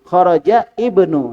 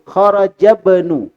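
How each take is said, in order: First: A break comes first and the opening vowel is pronounced. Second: The words run together with the opening vowel dropped. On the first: The reader stopped and started again. The speaker calls it wrong. "Tetapi kita berhenti kharaja... Hamzahnya dibaca ibnu" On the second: The phrase is read straight through without stopping. The speaker calls it right. "Kalau kita langsung baca dan sebaiknya begitu"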